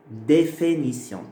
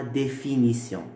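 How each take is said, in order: First: "Définition" slowly, its first I turned into É; assimilated I. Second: Said in the usual way. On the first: Shown as a demonstration. Teacher repeating the changed word for students, assimilated I as É. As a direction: say "Définition" as dé-fé-ni-sion. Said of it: "ça devient E". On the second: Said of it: "pas définition".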